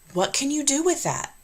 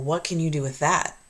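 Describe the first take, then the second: First: It sounds curious, upbeat and encouraging. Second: It sounds doubtful, scolding and dismissive. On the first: The listener feels excited about the idea. The speaker calls it right. "one will elicit excitement and enthusiasm" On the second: The listener feels criticized and discouraged. The speaker calls it wrong. "the other will make them feel deflated and reprimanded"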